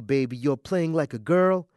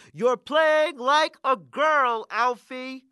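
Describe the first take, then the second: First: Tender. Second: High, drawn-out mocking holler; coach's holler. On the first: Acted. Father to baby daughter about future taunts, tender. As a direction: quote it to a child without the holler. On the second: Bully coach to skinny kid across the court, hollering. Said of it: "the coach on the other side of the court hollers".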